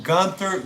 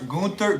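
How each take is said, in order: First: Said in the usual way. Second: Gunther with an "oo", as in GOON-ter; German-style Gunther. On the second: Shown as a demonstration. Correcting himself on the wrestler's name, Gunther said German-style as "Goonter".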